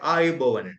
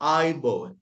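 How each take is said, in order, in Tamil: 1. இந்தச் சொல் இரண்டு அசைகளுடன் தொடங்குகிறது, a-yu. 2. இந்தச் சொல் ஒரே அசையுடன் தொடங்குகிறது, ai. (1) "நாங்கள் எழுத்து வழக்குல தான் இந்த ஆயுபோவன் சொல்லுவோம்" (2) "ஆய் அந்த ஐ சவுண்ட் வரும்"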